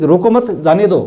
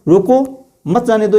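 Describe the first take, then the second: First: "रोको मत" joined, then "जाने दो"; group it as रोको मत, जाने दो; pause after मत. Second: "रोको", short break, higher "मत जाने दो"; pause after रोको. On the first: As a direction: keep मत tight to रोको, slight break before जाने दो. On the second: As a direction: set रोको apart, keep मत with जाने दो. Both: Shown as a demonstration. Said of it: "दोनों अलग-अलग बातें हो गई".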